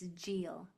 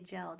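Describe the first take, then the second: First: The vowel is a long e sound. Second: The vowel is a short e sound. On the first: The speaker calls it right. "but it's Gel" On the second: The speaker calls it wrong. "We want to say gel, don't we?"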